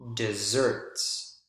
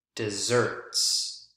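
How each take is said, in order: First: The stress is on the second syllable. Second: The stress is on the second syllable.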